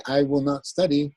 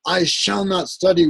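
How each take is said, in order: First: Said in the usual way. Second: I shall not study, with study lifted high; emphatic exclamation. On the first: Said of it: "with a period". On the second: Shown as a demonstration. Teacher contrasting emphatic and plain negation, emphatic. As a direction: read it as an exclamation. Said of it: "with an exclamation point".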